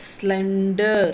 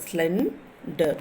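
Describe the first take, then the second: First: Slender drawn out, stressing SLEN; stress on first syllable. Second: Slender broken in two, SLEN, pause, der; split into syllables. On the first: Teacher showing word stress, Slender stressed on SLEN. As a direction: say Slender slowly with weight on SLEN. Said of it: "you are stressing at the S L E N". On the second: Teacher counting syllables, Slender split as SLEN - der. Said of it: "So the two syllables are there". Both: Shown as a demonstration.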